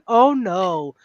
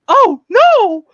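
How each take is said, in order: First: It is said flatly, with little energy. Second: It is said dramatically, with big energy.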